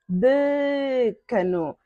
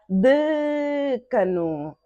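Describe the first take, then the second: No difference in how they are said.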